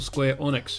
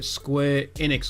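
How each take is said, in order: First: The second word begins with an 'oh' vowel. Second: The second word begins with an 'eh' vowel. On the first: "however you want to pronounce it" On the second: "however you want to pronounce it"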